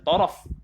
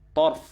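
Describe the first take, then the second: First: A vowel is sounded between the r and f. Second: No vowel is sounded between the r and f. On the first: The word means side. The speaker calls it wrong. "tarf bukan taraf" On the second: The word means eye. The speaker calls it right. "dibacakan dengan sukun ra"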